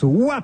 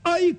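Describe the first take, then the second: First: The name is said like 'wa'. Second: The name is said like 'oeil'. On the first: The speaker calls it right. "Cela se prononce Ouah plage" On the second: The speaker calls it wrong. "et non œil"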